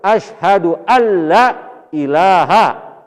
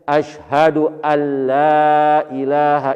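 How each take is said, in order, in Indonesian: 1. Vokal pada 'la' dibaca pendek. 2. Vokal pada 'la' dibaca panjang. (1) "Benar-benar ada Tuhan selain Allah, tuh musyrik jadinya"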